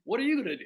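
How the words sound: It sounds friendly and light.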